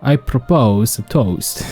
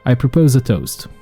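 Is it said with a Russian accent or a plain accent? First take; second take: Russian accent; plain accent. First: It is said with a put-on Russian accent. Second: It is said in the speaker's normal accent.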